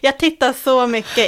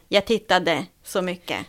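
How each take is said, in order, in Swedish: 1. Verbet slutar utan sin sista -de-stavelse. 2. Verbet slutar med sin fulla -ade-ändelse. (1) "Hör du att jag säger inte" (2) "jag säger inte"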